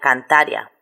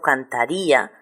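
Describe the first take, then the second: First: The final 'ia' is one gliding syllable. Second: The final 'i' and 'a' are separate syllables. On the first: The speaker calls it wrong. "la pronunciación normal sería de diptongo" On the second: The speaker calls it right. "lo pronuncio como dos sílabas diferentes"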